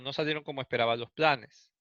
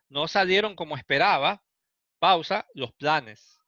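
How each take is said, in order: First: It runs straight through without a pause. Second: There is a pause before the final phrase. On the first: The speaker calls it wrong. "suena como medio extraño" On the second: The speaker calls it right.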